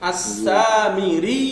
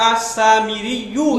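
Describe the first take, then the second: First: The word ends without any added final vowel. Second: An extra 'yoo' ending is sounded at the end. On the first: The speaker calls it right. "কিন্তু আমরা তো দুইটার মাঝে মাঝে বাইন বাইন করতেছি" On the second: The speaker calls it wrong. "অথবা আসামিরি ইউ এরকম হইতো"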